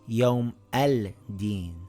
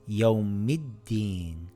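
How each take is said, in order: First: The l sound is clearly pronounced before the d. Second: The l sound is dropped before the d. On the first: The speaker calls it wrong. "and not Yawm al-Din" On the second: The speaker calls it right. "This reads Yawmiddin"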